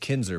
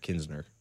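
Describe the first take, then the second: First: The name is said without an extra n sound. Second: The name is said with an extra n sound. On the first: The speaker calls it right. "It's Kinsner, by the way" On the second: The speaker calls it wrong. "not Kinsner"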